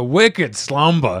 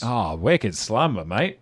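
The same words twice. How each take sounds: First: Slow, hammed-up Boston accent; drawn-out Boston vowels, dropped R in "Slumber". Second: Slow, mock Australian accent; drawn-out Australian vowels, dropped R in "Slumber". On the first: Player reading a card name aloud, Boston accent. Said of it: "one says Boston accent". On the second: Player joking with co-hosts on a card, Australian accent.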